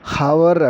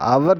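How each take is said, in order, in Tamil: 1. இந்த சொல் கேட்கக்கூடிய h ஒலியுடன் தொடங்குகிறது. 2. இந்த சொல் உயிரெழுத்தில் தொடங்குகிறது, h ஒலி இல்லை. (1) "ஹவர் அப்படின்னு சொல்லக்கூடாது" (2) "அவர் தான் சொல்லுவாங்க"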